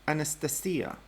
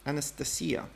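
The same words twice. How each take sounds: First: The name is pronounced the Russian way. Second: The same.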